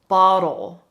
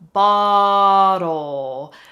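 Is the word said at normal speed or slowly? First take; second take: normal; slow. First: The word is said at normal speed. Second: The word is said slowly and drawn out.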